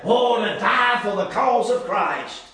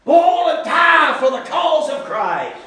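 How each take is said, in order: First: Slow, savoring each word; drawn-out, reverent musing; slow reverent phrase. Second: Fervent pulpit shout; shouted fervor. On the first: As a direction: let it linger like a treasured ideal. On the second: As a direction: lift it up like a rallying cry. Preacher shouting the ideal. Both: Shown as a demonstration.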